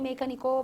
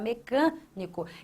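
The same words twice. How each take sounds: First: The stress falls on a syllable other than 'can'. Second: The stress falls on the syllable 'can'. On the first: The speaker calls it wrong. "nem mecânico" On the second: The speaker calls it right. "você fala mecânico"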